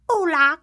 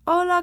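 First: It is said with a put-on British accent. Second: It is said with a native-sounding Spanish accent. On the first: "But they don't sound British when they speak. They're not like" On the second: "So they speak like"

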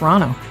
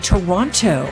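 First: The second T is dropped. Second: The second T is clearly pronounced. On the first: This is how locals say it. "We don't pronounce that second T" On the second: This is the formal broadcast pronunciation. "they made people say Toronto"

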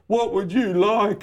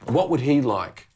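First: It is said in a put-on voice. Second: It is said in a normal voice.

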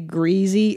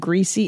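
First: The word is said the Southern way. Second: The word is said the standard way. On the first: "you say greasy rather than greasy" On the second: "a little of the Southern accent left in me"

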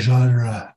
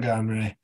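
First: The word is said with a French pronunciation. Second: The word is said with an anglicized pronunciation. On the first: The speaker calls it wrong. "We don't pronounce it like the French" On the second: The speaker calls it right. "It's called a genre"

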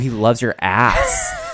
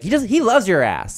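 First: The word 'ass' is stressed. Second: The word 'loves' is stressed. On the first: It is a joke about his large behind. "So I was putting the emphasis on ass" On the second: It just means he loves you. "But then it was like, no"

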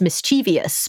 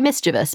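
First: The ending rhymes with devious. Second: The ending does not rhyme with devious. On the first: The speaker calls it wrong. "they think it rhymes with devious" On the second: The speaker calls it right. "it's actually mischievous"

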